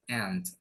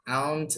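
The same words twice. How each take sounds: First: Aunt said like "ant", u left silent; correct pronunciation. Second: Aunt with the u sounded, "ah-oont"; wrong pronunciation. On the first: Teacher correcting the misreading, aunt as "ant". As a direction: say "aunt" just like the insect ant. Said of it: "bukan ya, tapi aunt". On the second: Teacher showing what to avoid, aunt with a voiced u. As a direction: say "aunt" as spelled, gliding from a to u. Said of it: "U-nya nggak usah dibaca, bukan". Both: Shown as a demonstration.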